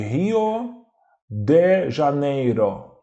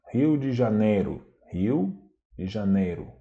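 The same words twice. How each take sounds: First: "Rio de Janeiro" slowly, each final o a full O; as written, full O. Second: "Rio de Janeiro" with final o as u, de as dji. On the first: Teacher shows the spelling, "Rio de Janeiro" with full final O. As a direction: spell out "Rio de Janeiro" by sound, very slow, no reduced vowels. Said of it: "A gente escreve". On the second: Teacher shows everyday Portuguese, "Rio de Janeiro" with o as u. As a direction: say "Rio de Janeiro" naturally, ending in -ru. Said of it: "pronunciado com som de U". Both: Shown as a demonstration.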